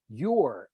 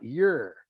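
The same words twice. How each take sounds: First: "your" said with a full "or" vowel; proper your. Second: "your" reduced to "yer"; Southern your. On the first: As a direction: say "your" to rhyme with "or". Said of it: "learn to say". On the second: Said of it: "and not". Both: Shown as a demonstration.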